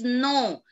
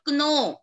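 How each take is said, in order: First: The k is silent at the start. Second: The k is sounded at the start. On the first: The speaker calls it right. "K is silent over here" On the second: The speaker calls it wrong. "that is not no"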